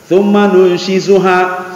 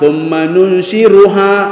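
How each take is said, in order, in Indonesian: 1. Konsonan sebelum akhiran itu bunyi 'z'. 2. Konsonan sebelum akhiran itu bunyi 'r'.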